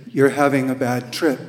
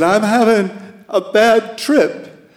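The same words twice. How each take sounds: First: Said in the usual way. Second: Put-on higher, louder girl's voice, distressed; teenage caller. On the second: Teen girl to the hotline volunteer, higher and louder. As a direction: play the scared teen on the phone.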